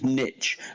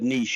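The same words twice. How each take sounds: First: The word is said like 'nitch'. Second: The word is said like 'neesh'.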